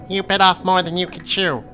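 It is said in a high-pitched voice.

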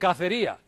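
The middle consonant is a th sound. This is how people in southern Spain say it. "ellos dicen cacería"

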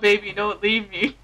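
It is said in a flat monotone. The speaker calls it wrong. "Just the monotone"

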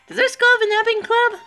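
It is said in a put-on Sayori voice.

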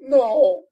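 It is said tearfully, with sniffing.

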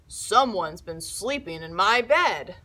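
The voice is big, deep and gruff. "in his big, gruff voice"

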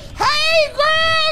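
The greeting sounds excited and full of energy.

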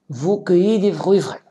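The voice falls at the end like a statement. It states a fact. "C'est une phrase déclarative"

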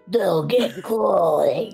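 It is said in a demon voice.

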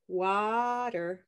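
The first vowel sounds like the vowel in 'sock'. "it's water is olive sock. And that's my accent of English"

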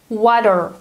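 The middle consonant sounds like a soft D. "the sound T in American English becomes D if it goes between two vowels"

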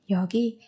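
The first syllable is pitched low. The word is read inside a sentence. "đọc thấp giọng ở cái âm tiết đầu tiên"

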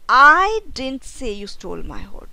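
The stress is on the word I.

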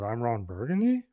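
The voice rises at the end, like a question.

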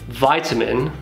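It is said with an American pronunciation. "you might be in the US where they say vitamin"

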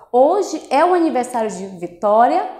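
The voice rises at the end, as a question.

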